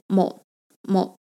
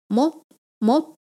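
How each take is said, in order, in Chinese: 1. 这个词不是上升调。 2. 这个词是上升调。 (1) "我们不念某某" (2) "就是往上升的那个某"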